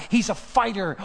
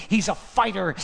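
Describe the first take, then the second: No difference in how they are said.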